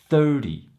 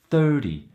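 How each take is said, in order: First: The middle consonant is a soft d sound. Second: The same.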